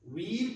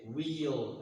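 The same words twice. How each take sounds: First: "wheel" as one higher-pitched WEEL, no glide; pure long ee in "wheel"; IPA pronunciation. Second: "wheel" drawn out as WEE-uhl; native-speaker pronunciation. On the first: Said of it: "by the I P A". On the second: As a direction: add a glide before the l in "wheel". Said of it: "and they say wheel". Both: Shown as a demonstration.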